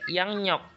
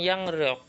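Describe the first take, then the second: First: The second syllable begins with an n sound. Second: The second syllable begins with an r sound. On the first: The speaker calls it right. "yang lebih enaknya itu dibacanya" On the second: The speaker calls it wrong. "Tadi dibacanya"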